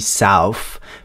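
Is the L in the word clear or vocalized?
vocalized. It has an A vowel and a vocalized L.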